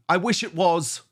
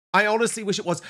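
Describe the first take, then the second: First: Earnest wish, wish stressed. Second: I pitched high and hit hard, loud, falling at the end; fervent repeat, I stressed hard. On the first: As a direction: wish leaned on, falling to a close. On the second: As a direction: punch the word I, much higher and louder. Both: Real, not acted.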